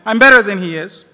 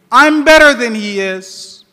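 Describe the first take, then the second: First: Said in the usual way. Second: Loud, proud claim of superiority; arrogant. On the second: A narrator's reading. Preacher voicing Shaitan boasting to God, loud and proud.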